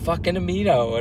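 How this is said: It sounds sharp and annoyed at the listener. The speaker is irritated at being asked. The speaker calls it wrong. "he didn't say it like that. Like, like he was annoyed at me asking"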